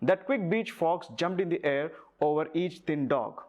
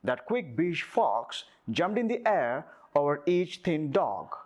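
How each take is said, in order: First: It is spoken in a neutral international accent. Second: It is spoken in an American accent. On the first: "so general నేను ఇలా మాట్లాడతాను" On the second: "నేను American యాక్సెంట్లో మాట్లాడాలి అనేటప్పుడు"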